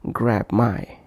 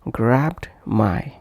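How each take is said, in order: First: The d at the end of grabbed is dropped. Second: The d at the end of grabbed is heard.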